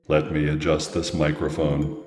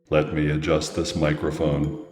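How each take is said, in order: First: The pitch stays on one flat note. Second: The pitch stays on one flat note.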